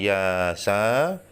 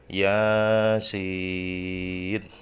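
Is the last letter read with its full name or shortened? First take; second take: shortened; full name. First: The letters are read as short syllables. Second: The letters are read with full letter names. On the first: The speaker calls it wrong. "bukan yasa" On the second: The speaker calls it right. "tapi dibaca Yasin"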